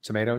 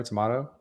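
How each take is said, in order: First: "Tomato" with an AY middle, to-MAY-to; common pronunciation. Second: "tomato" with an AH middle, to-MAH-to; alternate pronunciation. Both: Shown as a demonstration.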